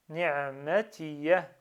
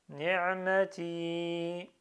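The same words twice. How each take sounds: First: Ni'matiya slowly, ending in a sounded "ya"; pronounced final ya. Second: Ni'mati with a long held final "ii"; prolonged ending. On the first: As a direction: finish ni'matiya on a short, clear "ya". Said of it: "je dois prononcer le ya". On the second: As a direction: stretch the end of ni'mati, no "ya" sounded. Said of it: "Ici, je prolonge". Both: Shown as a demonstration.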